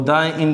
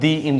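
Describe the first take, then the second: First: 'The' is said with a short 'thuh' vowel. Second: 'The' is said with a long 'thee' vowel. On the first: The speaker calls it wrong. "वो द end नहीं होता है" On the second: The speaker calls it right. "बल्कि क्या होता है, दी end होता है"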